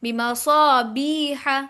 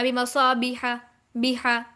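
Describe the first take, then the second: First: बिमसाबीहा slow, with बी lengthened; stretched, measured बिमसाबीहा; long madd. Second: बिमसाबीहा with बी cut short; spoken बिमसाबीहा, no lengthening on बी; short vowels. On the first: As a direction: hold the ee of बिमसाबीहा for a full beat. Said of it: "एक अलिफ के बराबर लंबा करेंगे". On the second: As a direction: say बिमसाबीहा briskly, without holding the ee. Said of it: "इसे ऐसे नहीं पढ़ना". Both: Shown as a demonstration.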